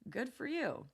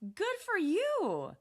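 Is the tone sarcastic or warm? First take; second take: sarcastic; warm. First: It sounds flat, dry and sarcastic. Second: It sounds warm, happy and supportive. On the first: "Flat, dry, maybe sarcastic" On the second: "That's warm, happy, and supportive"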